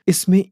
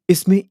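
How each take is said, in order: The two takes are said the same way.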